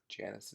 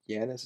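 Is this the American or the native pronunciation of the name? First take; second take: American; native. First: It uses the common American English pronunciation. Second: It uses the native, original pronunciation. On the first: This is the common everyday form. "Janus is just the common way to pronounce it in American English" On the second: This is the more correct original form. "Janus is probably more correct natively"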